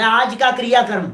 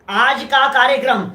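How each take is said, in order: First: कार्यक्रम misread as क्रियाक्रम, "kriya-kram"; demonstrating the misprint क्रियाक्रम; misprinted word. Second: Said in the usual way. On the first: Shown as a demonstration. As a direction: say क्रियाक्रम with "kriya" in place of "karya". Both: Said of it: "कार्यक्रम की जगह क्रियाक्रम छप जाता है".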